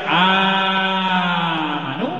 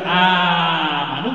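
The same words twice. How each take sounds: First: The vowel is stretched out long. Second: The vowel is held for only two counts. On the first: "Bisa panjang amanu" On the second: "bisa dua amanu"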